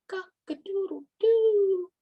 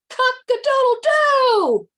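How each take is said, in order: First: It is crowed softly. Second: It is crowed very loudly and confidently.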